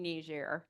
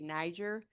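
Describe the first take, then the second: First: It is pronounced the French way. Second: It is pronounced the American English way. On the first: This is how people from the country say it. "I'm saying Niger. ... That's how Nigerians say it" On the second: This is how people in the United States usually say it. "we typically here in the United States say Niger"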